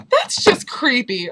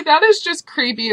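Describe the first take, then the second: First: Said in the usual way. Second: IS hit hard, higher and louder; stress on IS. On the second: Retold or imitated. Judging the girl who filmed her, stress on IS. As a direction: punch the word "is" to insist. Insists on her point by repeating.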